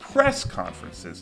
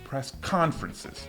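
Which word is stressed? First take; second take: press; conferences. First: The stress falls on the word press. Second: The stress falls on the word conferences. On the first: The speaker calls it right. "tem mais estresse no press. A gente fala press conferences" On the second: The speaker calls it wrong. "não press conferences"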